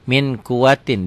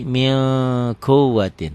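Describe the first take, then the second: First: The n is pronounced clearly before the q. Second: The n is hidden into a held nasal sound. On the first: "Ditulisnya tanpa G" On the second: "dibacanya jadi mil kuatin, ditahan ya"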